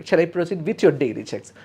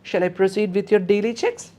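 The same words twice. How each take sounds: First: Said in the usual way. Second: Higher, lifting tune up to checks; the nurse's polite question tone, rising at the end. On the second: Shown as a demonstration. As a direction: ask it gently with a rise at the end. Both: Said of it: "so this is the tone".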